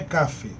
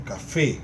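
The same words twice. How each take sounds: First: The stress is on the first syllable. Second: The stress is on the last syllable. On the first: The speaker calls it wrong. "Não é café" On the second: The speaker calls it right. "a tonicidade está na última sílaba"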